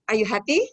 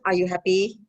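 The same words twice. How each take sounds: First: The voice rises at the end. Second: The voice falls at the end. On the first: The speaker calls it right. "But it goes up" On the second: The speaker calls it wrong. "We don't ask"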